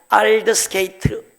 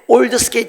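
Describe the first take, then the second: First: The name starts with an 'ahld' vowel sound. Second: The name starts with an 'old' vowel sound.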